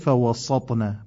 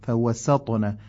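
First: The s sound is heavy and emphatic. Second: The s sound is light and clear. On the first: The speaker calls it wrong. "نشه فوسطنا" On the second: The speaker calls it right. "قشنگ حرف سین تلفظ بشه"

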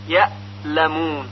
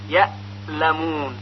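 No difference in how they are said.

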